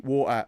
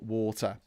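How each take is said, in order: First: The middle T sound is dropped. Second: The middle T sound is clearly pronounced. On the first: This is how it sounds in a Suffolk accent. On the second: This is the standard pronunciation.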